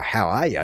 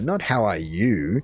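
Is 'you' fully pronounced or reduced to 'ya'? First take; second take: reduced; fully pronounced. First: The word 'you' is reduced to 'ya'. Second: The word 'you' is fully pronounced. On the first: The speaker calls it right. "everyone knows that it's, oh" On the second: The speaker calls it wrong. "to completely pronounce the U"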